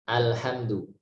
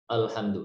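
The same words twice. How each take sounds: First: The opening vowel is thin, leaning toward e. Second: The opening vowel is thick and full. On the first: The speaker calls it right. "bacanya begini al al alhamdu. Mungkin mendekati e sedikit antara e dan a" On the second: The speaker calls it wrong. "jangan sampai al al alhamdu"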